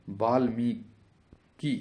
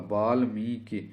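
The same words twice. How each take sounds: First: Valmiki in slow, separate syllables; very slow sounding-out. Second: Said in the usual way. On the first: Shown as a demonstration. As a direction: draw out Valmiki, pausing before the last syllable. Teacher sounds out the spelling. (Valmiki को बहुत धीरे तोड़कर)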